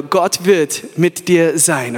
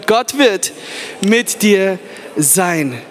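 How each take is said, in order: First: Very slow, low "Gott wird mit dir sein"; slow, low to neighbour. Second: Slow "Gott wird mit dir sein", drawn out on "dir"; slow for neighbour. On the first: Preacher models the promise for the crowd, very slow and low. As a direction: stretch every word, low and calm. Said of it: "sag deinem Nachbar". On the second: Preacher repeats the line, dragging out "dir". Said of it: "dreh dich um zu ihm und sag ihm". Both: Shown as a demonstration.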